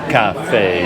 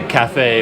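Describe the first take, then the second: First: Cafe is said with a Vietnamese accent. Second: Cafe is said with an English accent. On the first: This is how the locals say it. "but it's like cafe" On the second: This is how the speaker himself says it. "I say cafe"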